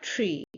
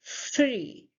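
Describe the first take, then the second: First: TREE with a short hard t; wrong pronunciation. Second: FREE with a long airy th, falling; correct pronunciation. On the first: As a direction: stop the air at the start of TREE. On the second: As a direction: hold the voiceless first sound of FREE. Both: Shown as a demonstration. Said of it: "not tree".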